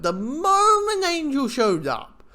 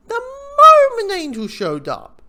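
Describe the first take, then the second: First: "moment" stressed on a raised pitch; emphatic excitement. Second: "moment" stretched very high and loud; drawn-out exclamation. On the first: Fan recalls Angel appearing in the episode, emphatic excitement. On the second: Fan repeats Angel's arrival for effect, drawn-out exclamation. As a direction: belt out "moment", slow and soaring. Repeats it far more emphatically. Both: Real, not acted.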